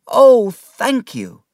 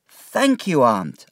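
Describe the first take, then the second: First: Higher, louder, slow heartfelt thanks; overjoyed thanks. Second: Put-on higher, boyish thanks; grateful boy. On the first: Acted. David thanking his aunt again, overwhelmed. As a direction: pour out the gratitude. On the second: David thanking his aunt, grateful. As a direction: thank her simply.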